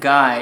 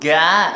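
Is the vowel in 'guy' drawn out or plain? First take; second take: plain; drawn out. First: The vowel is short and plain. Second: The vowel is drawn out with extra sounds. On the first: "it wasn't guy" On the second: "a whole bunch of like extra vowel sounds"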